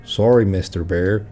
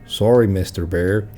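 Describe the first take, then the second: First: It is said in a put-on Canadian accent. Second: It is said in a put-on Canadian accent.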